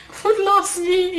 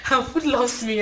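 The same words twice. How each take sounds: First: LOVES drawn out high and slow; slow, high, teasing Food loves me; playful emphasis. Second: Said in the usual way. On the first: Shown as a demonstration. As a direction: stretch out loves with a knowing, higher lilt. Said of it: "if you know what I mean". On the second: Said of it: "Look at me".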